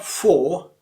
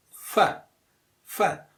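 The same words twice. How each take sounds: First: "for" with a full, long vowel; strong form of FOR. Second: "for" reduced to "fur"; weak form of FOR. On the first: Teacher showing what to avoid, strong "for". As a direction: draw out a full "for". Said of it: "So not for". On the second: Teacher modelling the weak form, "for" as "fur". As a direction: say "for" with a short schwa. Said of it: "which is again weak form". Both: Shown as a demonstration.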